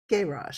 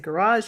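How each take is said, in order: First: It is said with a British accent. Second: It is said with an American accent. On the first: "you say garage" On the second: "I say garage"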